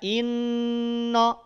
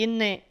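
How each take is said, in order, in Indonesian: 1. Vokal terakhir adalah A yang jelas. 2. Vokal terakhir terdengar seperti E. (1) "Inna sempurnakan dulu bunyi vokal A-nya" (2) "Apakah bunyi vokal O atau bunyi vokal E juga memungkinkan"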